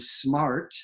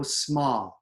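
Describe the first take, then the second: First: SMART with a full American R; R pronounced. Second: SMART as "smaht", standard British; dropped R. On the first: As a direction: sound the R in "smart". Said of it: "R is a consonant". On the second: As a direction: drop the R in "smart", long ah. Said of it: "they drop it". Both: Shown as a demonstration.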